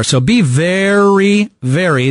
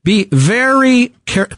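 First: Very said high and very slow; stress on very. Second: Very said high, slow, drawn out; stress on very. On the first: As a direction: punch very, stretching it. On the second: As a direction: lean hard on very. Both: Real, not acted. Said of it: "that's all caps".

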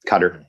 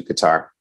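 First: Qatar with stress on the first syllable, KUT-er; Qatar as "cutter". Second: Qatar with stress on the second syllable, "tar"; Qatar as kuh-TAR. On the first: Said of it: "Qatar apparently is what you're supposed to say". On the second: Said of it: "Are you gonna say Qatar or Qatar?". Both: Shown as a demonstration.

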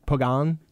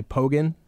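First: "Pogan" as poh-GAHN, full second vowel; alternative guessed pronunciation. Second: "Pogan" as POH-gun, stress up front; first guessed pronunciation. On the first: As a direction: try "Pogan" with an open AH in the ending. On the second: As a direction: say "Pogan" with a weak, short second syllable. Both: Shown as a demonstration. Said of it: "I don't know how to pronounce this".

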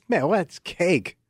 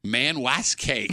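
First: Slowly, word by word; slow drawl. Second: Slow, stretched-out imitation; slow mocking repeat. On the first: Shown as a demonstration. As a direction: stretch it out slow. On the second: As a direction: echo it back slowly, mocking.

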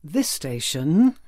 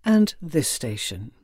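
First: "this station" slow, lifted on "this", then a big rise at the end; penultimate-stop inflection. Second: "and this station" slow, stepping down to a finish; final-stop inflection. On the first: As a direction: stretch "this station" and swing it up, one stop left. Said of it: "there'd be a penultimate one". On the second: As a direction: close the list on "and this station" with a falling tune. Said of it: "three different inflections". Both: Shown as a demonstration.

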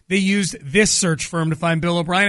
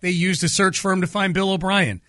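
First: "this" stressed and set apart from the words after. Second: Said in the usual way. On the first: Real, not acted. Host correcting himself to name the exact firm, stress on "this". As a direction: lean on "this" to single it out.

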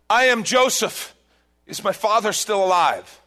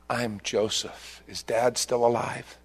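First: Loud reveal. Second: Tender reveal. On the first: Acted. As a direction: announce yourself to the brothers. Joseph reveals himself to brothers. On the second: Retold or imitated. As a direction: let the words land gently. Joseph's reveal retold tenderly.

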